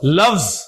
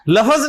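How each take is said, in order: First: The final consonants come together without a vowel. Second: A vowel is inserted between the final consonants. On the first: The speaker calls it right. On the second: The speaker calls it wrong. "लफज नहीं है"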